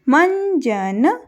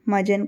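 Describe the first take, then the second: First: The first vowel is followed by a nasal sound. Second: The first vowel is plain, with no nasal sound. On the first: It names tooth powder. The speaker calls it right. "जब बिंदी ऊपर लगी यानी अनुस्वार ऊपर लगा" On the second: It is not a real word. The speaker calls it wrong. "मजन का कोई अर्थ नहीं"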